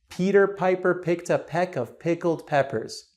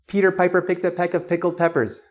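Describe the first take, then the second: First: It is said at a normal pace. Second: It is said very quickly.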